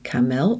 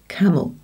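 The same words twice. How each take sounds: First: The second vowel is said as a full vowel. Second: The second vowel is reduced to a weak schwa. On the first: The speaker calls it wrong. "We don't say camel" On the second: The speaker calls it right. "It's the E that is swallowed. It goes camel"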